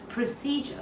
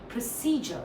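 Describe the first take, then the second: First: The stress is on the first syllable. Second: The stress is on the second syllable. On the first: The speaker calls it wrong. "like when I'm stressing the pro, but that's not correct" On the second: The speaker calls it right. "So that's the C is stressed"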